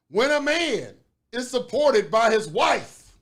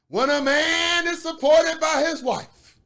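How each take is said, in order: First: It is read in a plain reading voice. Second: It is read in a put-on preacher voice.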